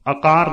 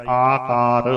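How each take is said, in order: First: "ਆਕਾਰ" said a-kaar, first vowel short; short initial vowel. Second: "ਆਕਾਰ" with a long opening aa, aa-kaar; long initial vowel. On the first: Teacher shows the mistake, short a opening "ਆਕਾਰ". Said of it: "ਆਕਾਰ ਨਹੀਂ ਕਰਨਾ". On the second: Teacher models the correct word, long aa opening "ਆਕਾਰ". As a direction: hold the first vowel of "ਆਕਾਰ". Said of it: "ਆੜੇ ਦਾ ਕੰਨਾ ਧਿਆਨ ਰੱਖਣਾ". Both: Shown as a demonstration.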